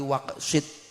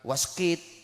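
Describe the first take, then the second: First: The k sound comes before the s sound. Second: The s sound comes before the k sound. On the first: The speaker calls it right. "tapi waksit" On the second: The speaker calls it wrong. "bukan waskit"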